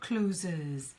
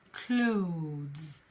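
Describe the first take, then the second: First: The word has two syllables, like closes. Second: The word has a single syllable. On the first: The speaker calls it wrong. "It's not closes" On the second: The speaker calls it right. "It's clothes"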